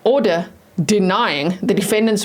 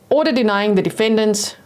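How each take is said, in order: First: The phrase is read at a slower pace. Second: The phrase is read at a quick pace. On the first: The speaker calls it right. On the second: The speaker calls it wrong.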